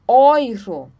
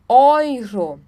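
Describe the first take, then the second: First: The first vowel is said as oi. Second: The first vowel is said as oi.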